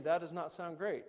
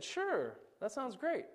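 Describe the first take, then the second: First: A lightly voiced wife, dry and unimpressed; flat wife's objection. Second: Higher, light chirpy agreement; breezy social worker. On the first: Wife disagreeing with the social worker, dry objection. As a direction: shoot the idea down dryly. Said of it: "my wife is saying". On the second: Retold or imitated. Social worker to the dad, chirpy easy yes. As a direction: chirp it like a cheerful caseworker. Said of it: "And she said".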